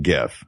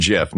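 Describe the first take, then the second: First: "gif" with a hard G as in give. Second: "gif" pronounced like jif; soft G. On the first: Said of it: "not gif". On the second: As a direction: say "gif" with a J sound. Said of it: "and I quote, "It's pronounced gif". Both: Shown as a demonstration.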